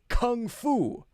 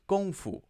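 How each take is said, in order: First: It is said with English sounds, starting 'kung'. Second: It is said with Chinese sounds, starting 'gong'. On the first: "so we say kung fu" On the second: "the Chinese pronunciation"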